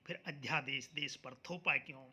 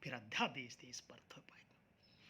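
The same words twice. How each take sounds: First: Said in the usual way. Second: Low, whispery repeat of the question; hushed echo. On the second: Real, not acted. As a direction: ask it under your breath.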